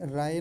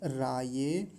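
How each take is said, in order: First: The word ends on a short 'ay' sound. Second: The word ends with an added 'yeh' syllable. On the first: The speaker calls it wrong. "कई बार राय ऐसा बोल दिया जाता है" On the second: The speaker calls it right. "जैसा लिखा हुआ है वैसा बोलेंगे"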